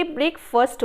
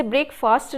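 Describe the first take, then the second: First: ब्रेकफास्ट with a short, reduced "fust" ending; correct breakfast pronunciation. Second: ब्रेकफास्ट with a long open "faast" ending; mispronounced breakfast. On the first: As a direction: say ब्रेकफास्ट as "BREK-fuhst", no long aa. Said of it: "ब्रेकफास्ट होता है". (ब्रेकफास्ट को छोटे अ से "ब्रेकफ़स्ट" बोलें) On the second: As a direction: say ब्रेकफास्ट with "fast" as in quick, long aa. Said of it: "इसे ब्रेकफास्ट नहीं बोलेंगे". (ब्रेकफास्ट में "फ़ास्ट" को लंबे आ से बोलें) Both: Shown as a demonstration.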